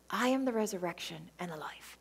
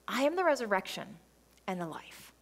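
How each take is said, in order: First: It is said in a soft, comforting voice. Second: It is read in a plain reading voice.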